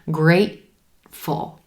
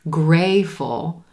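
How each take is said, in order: First: The T is held with a throat closure. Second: The T sound is left out entirely. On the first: The speaker calls it right. "I'm holding that T sound" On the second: The speaker calls it wrong. "you don't want to say grayful"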